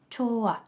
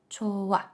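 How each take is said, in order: First: The h sound is dropped between the vowels. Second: The same.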